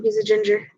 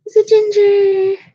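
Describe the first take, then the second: First: Said in the usual way. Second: High, slow, loud squeal on He's a ginger. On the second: Real, not acted. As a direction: stretch it out in a gushing squeal.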